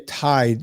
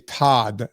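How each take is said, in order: First: The vowel is a full 'eye' glide. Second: The vowel is a flat 'ah' sound. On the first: "They don't say Tide" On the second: "they say Todd, T O D D"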